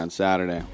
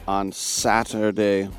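First: The T is soft, like a quick D. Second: The T is hit hard and crisply.

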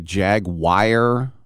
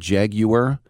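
First: The word is said with an American pronunciation. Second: The word is said with a British pronunciation. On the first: "some Americans say jaguar" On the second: "the English call it jaguar"

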